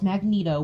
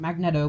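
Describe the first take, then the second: First: The name is said the usual standard way. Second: The name is said as its spelling suggests. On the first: The speaker calls it right. "I know it's Magneto" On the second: The speaker calls it wrong. "I pronounce it Magneto because look at the way it's spelled"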